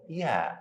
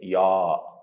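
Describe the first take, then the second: First: The letter is said light, with a thin sound. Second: The letter is said heavy, with a full sound. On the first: The speaker calls it right. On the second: The speaker calls it wrong. "Don't say ya"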